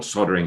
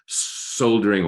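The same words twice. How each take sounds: First: "soldering" with the L dropped; silent L. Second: "soldering" with the L sounded; L pronounced. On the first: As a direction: say "soldering" as SOD-er-ing, no L. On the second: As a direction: say "soldering" as SOL-der-ing, L heard. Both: Shown as a demonstration. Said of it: "however you pronounce it".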